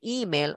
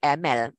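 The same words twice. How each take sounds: First: The first vowel is a full clear e. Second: The first vowel is weak and reduced. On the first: This matches the hyphenated spelling. "E ni perlu dibunyikan E" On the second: This matches the spelling without a hyphen. "Kalau ejaan yang warna biru, sebutannya email"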